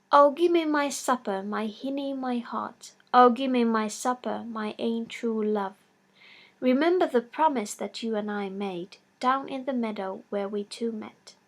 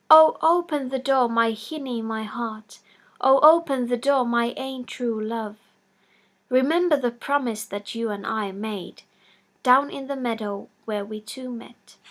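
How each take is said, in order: First: Half-sung lilting verse; sung by the paddock. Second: Lilting sung verse; sung by the paddock. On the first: Paddock by the fireside singing for supper, lightly sung. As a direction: croon the little supper song. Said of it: "he began to sing this song". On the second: Paddock singing at the cottage door, sung plainly. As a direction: sing it sweetly through the door. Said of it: "a tiny little wee voice singing". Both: A narrator's reading.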